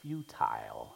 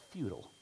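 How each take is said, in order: First: "Futile" said as FYOO-tile; alternative pronunciation. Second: "futile" said as FYOO-tul; American pronunciation. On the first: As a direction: say "Futile" with the second syllable rhyming with "mile". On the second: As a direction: say "futile" with a weak, swallowed second syllable. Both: Shown as a demonstration. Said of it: "however you want to pronounce it".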